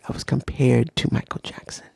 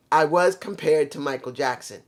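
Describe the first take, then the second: First: Breathy low whisper of the line; low whispered aside. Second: Said in the usual way. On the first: Shown as a demonstration. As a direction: hush it like a secret confession. Retells being compared as kid.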